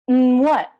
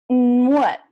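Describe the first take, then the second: The two takes are said the same way.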